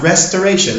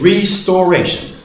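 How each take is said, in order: First: The first part sounds like the word rest. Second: The first part sounds like the word restore. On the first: The speaker calls it wrong. "Not restoration, like most Americans like to say" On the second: The speaker calls it right. "It is restoration"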